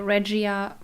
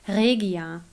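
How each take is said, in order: First: The name is pronounced the English way. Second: The name is pronounced the German way. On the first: "I always say Regia for you to that you know what I mean" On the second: "the right German pronunciation of that company is Regia"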